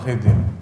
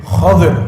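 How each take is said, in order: First: The first vowel is an 'i' sound. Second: The first vowel is an 'a' sound. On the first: The speaker calls it wrong. "yang benar itu jamaah bukan Khidir" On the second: The speaker calls it right. "tapi Khadir. ... Itu yang benar"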